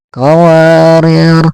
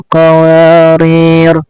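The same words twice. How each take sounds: The two takes are said the same way.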